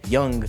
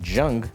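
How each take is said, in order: First: The word begins with a Y sound. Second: The word begins with a J sound. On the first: The speaker calls it right. "the Y, Young" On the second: The speaker calls it wrong. "sounds like J, Jung"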